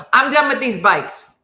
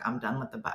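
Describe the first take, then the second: First: Loud, high, fed-up outburst; exasperated and raised, a comic meltdown beginning; start of breakdown. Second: Low, soft, deflated; quietly fed up, lower register; resigned giving up. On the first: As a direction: declare it, pushed past your limit. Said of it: "that's the beginning of the breakdown". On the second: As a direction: drop it down, worn out with it. Retold giving up halfway there. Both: Retold or imitated.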